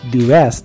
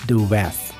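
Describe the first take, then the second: First: 'The' is said with a long 'ee' vowel. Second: 'The' is said with a short 'uh' vowel. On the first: The speaker calls it wrong. "bukan the west" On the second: The speaker calls it right. "tapi the west"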